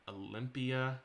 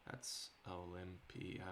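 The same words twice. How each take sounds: First: Called out louder, testing how Olympia sounds; trying the name out. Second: Softer and slower, weighing Olympia; musing. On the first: Game dev tries a city name for a character, calling it out. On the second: Game dev mulls the city name half to himself, softly. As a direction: roll Olympia over quietly to judge it. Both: Real, not acted.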